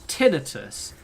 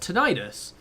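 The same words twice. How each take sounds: First: It is said with a British pronunciation. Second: It is said with an American pronunciation. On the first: The speaker calls it wrong. "the British way of saying it is tinnitus" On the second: The speaker calls it right. "I think the American version of the word sounds more correct. So I just say tinnitus"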